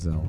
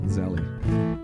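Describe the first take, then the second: First: It is said as one syllable, ending in L. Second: It is said as two syllables, ending in 'ee'. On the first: The speaker calls it wrong. "rather than Zell" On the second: The speaker calls it right. "I want to pronounce that Zelly because I think that's better"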